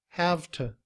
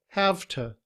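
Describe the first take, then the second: No difference in how they are said.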